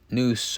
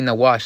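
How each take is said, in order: First: The word is said short, like noose. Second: The word is said with two syllables, nawash. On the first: The speaker calls it wrong. "that's the Yiddish pronunciation" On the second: The speaker calls it right. "that's a proper pronunciation"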